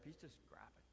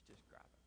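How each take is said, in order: First: Said in the usual way. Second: "He's just griping" whispered, no voice; whispered aside. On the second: Shown as a demonstration. Preacher whispering about the griping coworker.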